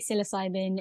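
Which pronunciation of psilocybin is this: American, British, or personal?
American. The word is said the American way. This is how people in America say it. "In America, they say"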